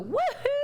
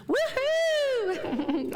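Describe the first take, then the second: First: High woohoo; cheer. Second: Cheer. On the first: Pretend. Minister cheering with the congregation, high whoop. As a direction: let out a joyful whoop. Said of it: "we can all go". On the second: Real, not acted. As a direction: lead the room in a big laughing whoop. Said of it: "So everybody with me".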